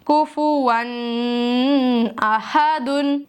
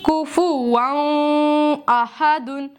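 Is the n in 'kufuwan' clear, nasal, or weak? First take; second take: nasal; weak. First: The n is held with nasalization. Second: The n is not fully articulated. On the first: "और मैं गुन्ना करती हूँ तो आवाज कैसी होती है" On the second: "नून को उसके मखरज से ना पढ़ूं तो कैसी आवाज होगी"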